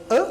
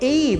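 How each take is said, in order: First: The word is said plainly, without emphasis. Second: The word is said with emphasis. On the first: Refers to any one thing in general. "a gente pode falar a" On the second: Specifies exactly one particular thing. "você está enfatizando este um"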